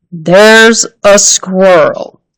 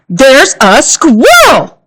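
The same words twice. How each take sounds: First: Slow, puzzled echo; slow repeat. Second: Slow, word by word; धीरे-धीरे हर शब्द पर ज़ोर; slow and careful. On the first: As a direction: echo it back slowly, puzzled. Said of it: "repeated her father". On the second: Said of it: "speaking more slowly now". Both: A narrator's reading.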